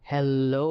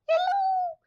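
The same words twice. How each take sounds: First: It is said in a monstrous voice. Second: It is said in a squeaky voice.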